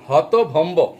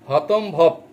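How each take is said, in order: First: It is pronounced hotobhombo, with bh before m. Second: It is pronounced hotombob, with the sounds swapped. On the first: The speaker calls it right. "তারা মানে হতভম্ব শব্দটা উচ্চারণ করতে পারে না" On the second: The speaker calls it wrong. "তারা হতভম্বকে হতম্ভব বলে ফেলে"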